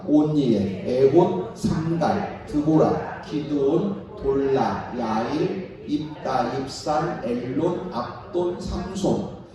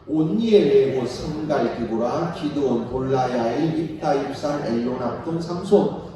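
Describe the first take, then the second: First: The names are read at a normal pace. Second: The names are read at a faster pace.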